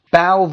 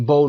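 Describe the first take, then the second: First: "باو" with an OW vowel, like cow; bow rhyming with cow. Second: "بو" with a long O, like go; bow rhyming with go. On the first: Teacher contrasting homographs for learners, "باو" rhyming with cow. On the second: Teacher contrasting homographs for learners, "بو" rhyming with go. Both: Shown as a demonstration.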